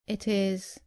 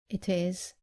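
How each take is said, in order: No difference in how they are said.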